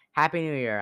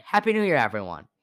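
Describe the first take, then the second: First: Said in the usual way. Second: Excited greeting. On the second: Real, not acted. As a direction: burst out with the greeting. New Year greeting to listeners.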